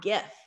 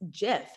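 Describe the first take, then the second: First: The word begins with a hard G sound. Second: The word begins with a soft J-like sound. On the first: The speaker calls it wrong. "not GIF" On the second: The speaker calls it right. "I officially learned that it's GIF"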